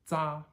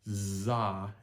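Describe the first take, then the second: First: The sound is short, clipped and staccato. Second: The sound is voiced continuously all the way through. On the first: The speaker calls it right. "It's more staccatoed" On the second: The speaker calls it wrong. "it's not za and you voice it all the way through"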